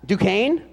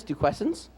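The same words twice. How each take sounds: First: "Duquesne" said doo-KAYN, no final s; corrected try. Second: "Duquesnes" tried as doo-KAYNZ, softer and questioning; unsure guess. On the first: Announcer correcting the college name, tentative. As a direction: fix "Duquesne" to the right sound. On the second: Announcer stumbling over the college name, unsure guess. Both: Real, not acted. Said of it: "how do you say this?".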